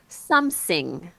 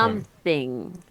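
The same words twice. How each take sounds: First: The word begins with an s sound. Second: The word begins with a th sound. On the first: The speaker calls it wrong. "make like an S sound" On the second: The speaker calls it right. "instead of"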